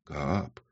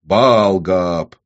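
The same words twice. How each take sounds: First: Very soft, low single word; timid. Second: Louder, firm correction; correcting. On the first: Woman starting to name her master, timid. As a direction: say the name faintly. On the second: Demon correcting the woman's form of address, firm. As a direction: stress БААЛ with authority. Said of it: "поправил он Ксану". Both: A narrator's reading.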